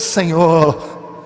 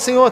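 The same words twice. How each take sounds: First: The word is said in a trembling, inflated voice. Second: The word is said in a plain, natural voice. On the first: Praying in public to be seen and honored. The speaker calls it wrong. "dá aquela tremida na voz" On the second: Praying privately, with no audience. The speaker calls it right. "Na oração do seu quarto, você fala"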